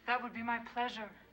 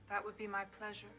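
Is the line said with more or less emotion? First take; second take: more; less. First: It is said with more emotion. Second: It is said with less emotion.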